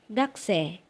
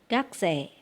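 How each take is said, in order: No difference in how they are said.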